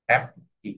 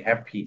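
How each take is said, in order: First: happy cut in two with a clear gap, "hap ... pi"; split into syllables. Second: Said in the usual way. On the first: Shown as a demonstration. Teacher showing where the word divides, happy in two pieces. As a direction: separate both beats of happy. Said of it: "দুটো syllable এসেছে". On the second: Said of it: "দেখছো?".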